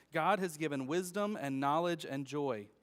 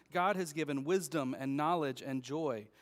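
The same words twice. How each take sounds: The two takes are said the same way.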